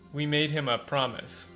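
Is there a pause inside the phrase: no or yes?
yes. The phrase has a dramatic pause inside it. The speaker calls it right. "There is a pause here for once"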